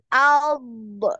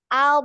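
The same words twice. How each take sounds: First: The final consonant is released with a bounce. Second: The final consonant is held and flows smoothly. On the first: The speaker calls it wrong. "ini hati-hati ada pantulan juga. Jangan alb" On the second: The speaker calls it right. "jadi jangan dilepas ya, biarkan nempel terus lidahnya"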